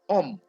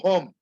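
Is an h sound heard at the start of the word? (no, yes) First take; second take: no; yes. First: The word begins directly with a vowel sound. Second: The word begins with an audible h sound. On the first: The speaker calls it right. "The H is not pronounced" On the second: The speaker calls it wrong. "It is not home"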